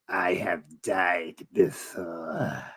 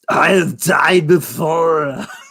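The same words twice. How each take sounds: First: A put-on, sinister old emperor's voice. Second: A put-on, Austrian-accented strongman's voice. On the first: "he goes" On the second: "Arnold would be like"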